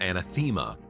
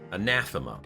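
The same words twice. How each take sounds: First: The stress is on the third syllable. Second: The stress is on the second syllable. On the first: The speaker calls it wrong. "Not anathema. ... not the third" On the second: The speaker calls it right. "The stress is on the second syllable"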